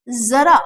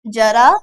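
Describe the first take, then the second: First: जरा with a long buzzing z, zara; buzzed z. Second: जरा with a hard j, jara; plain j. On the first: Teacher showing the dotted word, जरा with buzzed z. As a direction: lean on the z opening जरा. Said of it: "जरा होगा". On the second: Teacher showing the undotted word, जरा with plain j. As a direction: begin जरा with j as in jam. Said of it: "जरा ना होके क्या होगा". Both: Shown as a demonstration.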